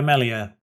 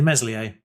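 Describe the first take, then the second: First: The name is said without an s sound. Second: The name is said with an s sound. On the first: "the way you're supposed to pronounce that" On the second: "I would be inclined to say Meslier"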